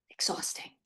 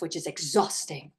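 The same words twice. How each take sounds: First: "Exhausting" whispered, no voice; whispered echo. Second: Said in the usual way. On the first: Real, not acted. Coach sighs to parents, whispering "Exhausting". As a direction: breathe "Exhausting" as a tired aside. Echoes the word under her breath.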